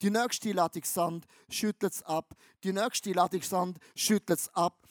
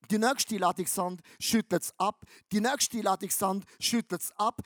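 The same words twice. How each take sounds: The two takes are said the same way.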